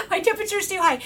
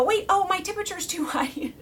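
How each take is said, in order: First: Quick repeat through laughter; laughing. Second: Said in the usual way. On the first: Shown as a demonstration. Repeating her own line to viewers, laughing. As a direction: laugh as you say it again.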